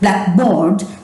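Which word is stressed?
board. The stress falls on board.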